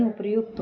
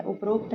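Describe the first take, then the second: First: उपर्युक्त said "uparyukt"; उपर्युक्त with the ryu cluster; correct form. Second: उपरोक्त said "uparokt"; उपरोक्त with an o in the middle; wrong form. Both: Shown as a demonstration. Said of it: "उपर्युक्त होता है".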